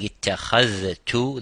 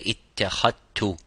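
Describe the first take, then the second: First: The dh and t sounds are both pronounced. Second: The dh sound merges into one t sound. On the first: "instead of saying ittakhadtu" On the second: "they would say ittakhadtu, or ittakhadtum as idgham"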